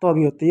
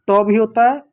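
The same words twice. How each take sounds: First: त with tongue on the teeth; dental T sound. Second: ट with tongue curled back; retroflex T sound. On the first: (दंत्य त की ध्वनि) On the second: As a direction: say ट hard, off the palate. (मूर्धन्य ट की ध्वनि) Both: Shown as a demonstration. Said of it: "ये आपका त और ट दोनों होता है".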